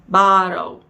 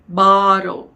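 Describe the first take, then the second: The two takes are said the same way.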